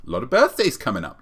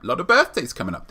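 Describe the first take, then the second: First: Said in the usual way. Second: Higher, fast excited repeat; building excitement on birthdays; more excited. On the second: Shown as a demonstration. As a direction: push it up with glee.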